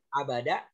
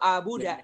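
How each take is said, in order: First: The second vowel is an a sound. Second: The second vowel is a u sound. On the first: The speaker calls it right. "bacanya itu fa'ala" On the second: The speaker calls it wrong. "Nggak boleh baca apa itu abuda"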